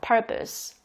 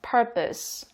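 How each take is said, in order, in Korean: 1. 두 번째 음절은 약하고 'uh' 모음이에요. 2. 두 번째 음절은 약하고 'uh' 모음이에요.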